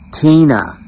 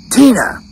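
First: Said in the usual way. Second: High sharp yell of a name; retold yell. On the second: Boss storming out after reading the cards, high yell. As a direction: call her out like an angry boss. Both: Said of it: "Mister Wilson yelled".

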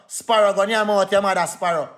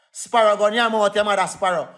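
Both takes have the same delivery.

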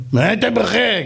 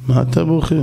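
First: Higher, pained echo of the question; distraught king repeating it; anguished king. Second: Said in the usual way. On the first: Acted. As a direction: throw the question back through tears. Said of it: "המלך יושב ובוכה". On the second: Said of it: "אמר לו".

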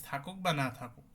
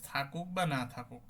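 Both takes have the same delivery.

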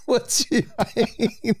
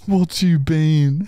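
First: What's you been laughed out high; giggling What's you been, rising end; laughing silly delivery. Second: What's you been said slowly, you stretched; slow goofy What's you been with rising end; drawn-out silly delivery. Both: Shown as a demonstration.

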